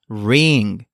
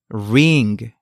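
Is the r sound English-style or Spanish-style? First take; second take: English-style; English-style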